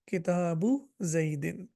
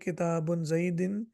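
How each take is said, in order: First: The first word ends in a plain u sound. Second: The first word ends with an added n sound. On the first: The speaker calls it right. "पेश नहीं आएगी, तो हम कहेंगे" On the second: The speaker calls it wrong. "आप मुझे कहेंगे कि ये गलत है"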